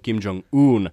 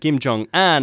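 First: The last syllable sounds like 'oon'. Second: The last syllable sounds like French 'un'. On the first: The speaker calls it right. "Oikea ääntämys on" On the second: The speaker calls it wrong. "joka on siis aivan väärin"

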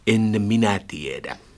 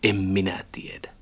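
First: The n of 'en' is kept clearly as n. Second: The n of 'en' blends into an m. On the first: The speaker calls it wrong. "ole tavannut yhtään näyttelijää, joka sanoisi" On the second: The speaker calls it right. "Kyllä se on aina sanottu"

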